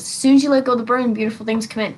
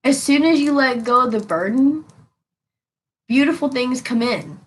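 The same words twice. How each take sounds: First: As soon as you let go of the burden rushed out quickly; fast plain repeat. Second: As soon as you let go of the burden said slowly, each word weighted; slow emphatic delivery. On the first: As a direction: toss off beautiful things come in. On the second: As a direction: lean on beautiful, let it fall. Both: Shown as a demonstration. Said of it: "That's how that is".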